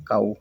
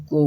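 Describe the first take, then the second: First: "काऊ" with an 'aa' gliding to 'oo'; correct cow. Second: "को" with an 'oh' sound, as 'ko-a'; misread cow. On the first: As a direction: say "काऊ" as English 'cow'. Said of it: "क्या पढ़ते हैं". ("काऊ" में 'आ' की मात्रा) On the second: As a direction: read 'cow' wrongly as "को". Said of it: "या को नहीं पढ़ेंगे". ("को" में 'ओ' की मात्रा) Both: Shown as a demonstration.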